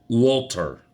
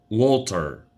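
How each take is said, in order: Both takes have the same delivery.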